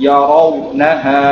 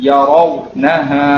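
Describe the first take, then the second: Both takes have the same delivery.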